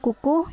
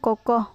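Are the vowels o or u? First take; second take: u; o. First: The vowels are said as u. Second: The vowels are said as o. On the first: The speaker calls it wrong. "contoh salahnya yaitu" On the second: The speaker calls it right. "yang benarnya yaitu"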